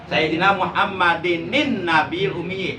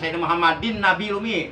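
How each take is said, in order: First: Muhammad links to Nabil with an added nun sound. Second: Muhammad runs into Nabil without the added nun. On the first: The speaker calls it right. "Harus pakai nun ya" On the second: The speaker calls it wrong. "Jangan ... Itu salah"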